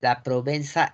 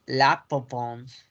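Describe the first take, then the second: First: Said in the usual way. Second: Slow La Provence, throaty R, nasal ending; French Provence as "pro-vons"; French pronunciation. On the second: Shown as a demonstration. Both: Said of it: "La Provenza es La Provence".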